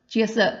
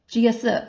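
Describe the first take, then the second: First: The two vowels blend quickly into a y sound. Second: The two vowels blend quickly into a y sound.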